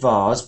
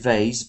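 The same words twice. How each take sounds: First: It is said in a British accent. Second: It is said in an American accent. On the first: "in English we say vase" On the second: "in America you say vase"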